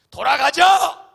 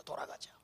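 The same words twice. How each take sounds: First: Slow, much louder shout of revolt; angry crowd shout. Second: Whispered, hushed; conspiring whisper. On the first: Grumbling Israelites demand to go back, a loud slow shout. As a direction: yell it as the grumbling people rising up. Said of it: "그러면서 하는 말이". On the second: Grumblers plot among themselves in a whisper. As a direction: breathe it like a secret plan. People plotting to turn back. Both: Retold or imitated.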